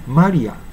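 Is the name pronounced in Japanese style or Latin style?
Japanese. It is said with Japanese-style pronunciation. The speaker calls it wrong. "日本語式に言うとね"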